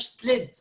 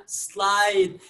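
First: سليد with a short i, like slid; wrong short vowel. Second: سلايد slowly, with a long ai; correct long vowel. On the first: Teacher showing learners the mistake, short vowel. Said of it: "ما قلناش". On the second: Teacher modelling the correct vowel for students, slow. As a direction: stretch the ai in سلايد. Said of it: "قلنا". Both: Shown as a demonstration.

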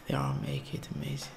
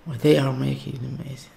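First: Fast, breathy whispered echo. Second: Said in the usual way. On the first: Real, not acted. Vlogger whispering his awe at the video. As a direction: repeat it to yourself in a quick whisper.

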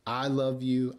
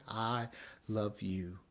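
First: Said in the usual way. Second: Hushed, gentle I love you, love said softly; tender and soft. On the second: Acted. Preacher voicing God's gentle love to the congregation, soft. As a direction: breathe it out like a tender promise.

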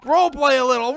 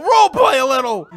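First: Said in the usual way. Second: "role play a little" called out louder, pushing hard; insist, almost shouting it; louder insistent plea. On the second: Real, not acted. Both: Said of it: "don't play seriously, man".

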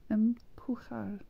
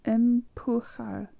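First: "Empujar" whispered, slow and unvoiced; whispered repeat. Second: "Empujar" spelled out slowly, every syllable drawn out; slow careful pronunciation. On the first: Learner whispering "Empujar" to herself to memorise it. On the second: Learner sounding out "Empujar" slowly for viewers. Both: Shown as a demonstration. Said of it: "tomar means to take".

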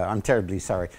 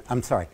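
First: Mock apology. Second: Said in the usual way. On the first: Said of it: "Australia wins again". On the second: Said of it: "You will have recognized from my accent".

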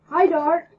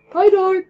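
First: Loud, high call; loud cheerful call; yelled greeting. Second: Even louder, higher shout; big booming hello; louder yelled greeting. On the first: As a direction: shout hello across the room. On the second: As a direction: call it out fully. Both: Acted. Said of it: "he yelled".

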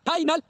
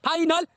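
No difference in how they are said.

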